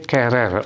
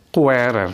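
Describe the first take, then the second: First: The u is silent, giving a plain k. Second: The u is pronounced, giving a kw sound. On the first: The speaker calls it right. "tapi querer. U-nya tidak usah diucapkan" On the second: The speaker calls it wrong. "bukan querer"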